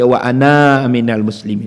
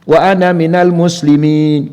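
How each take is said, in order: First: The vowel at the end of 'ana' is long. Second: The vowel at the end of 'ana' is short. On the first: The speaker calls it wrong. "Kita tak baca" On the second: The speaker calls it right. "ketika wasal, kaedahnya aja pendek"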